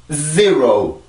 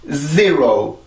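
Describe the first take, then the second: The two takes are said the same way.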